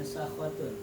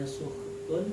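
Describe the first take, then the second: First: The first vowel is a. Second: The first vowel is u. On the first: This is another accepted reading of the word. "ada yang membacanya sakhotun" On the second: This is one accepted reading of the word. "Ada yang membacanya sukhutun"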